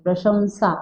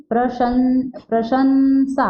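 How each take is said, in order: First: प्रशंसा with a rounded nasal, "pra-shum-saa"; teacher's model प्रशंसा, "prashum-saa"; correct pronunciation. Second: प्रशंसा with a plain न, "pra-shan-saa"; wrong-example प्रशंसा, sounded "prashan-saa"; mispronounced प्रशंसा. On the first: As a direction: say प्रशंसा with nasal anusvara, no hard n. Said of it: "उच्चारण होना चाहिए". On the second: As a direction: say प्रशंसा wrongly, anusvara as a full n. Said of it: "ये गलत बोला जाता है इसको". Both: Shown as a demonstration.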